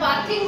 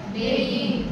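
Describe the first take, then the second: First: The first vowel is a short 'a'. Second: The first vowel is an 'ay' sound. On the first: The speaker calls it wrong. "बाथिंग म्हणलं की तुम्हाला लवकर समजेल" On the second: The speaker calls it right. "खरा उच्चार बेदिंग"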